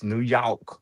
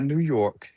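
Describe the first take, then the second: First: "New York" with the R dropped, York like "yawk"; local New York. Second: "New York" with a clear, hard R in York; wrong New York. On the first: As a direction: say "New York" without the R, slowly. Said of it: "it's not New York". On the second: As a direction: say "New York" pronouncing the R fully. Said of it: "It's New York". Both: Shown as a demonstration.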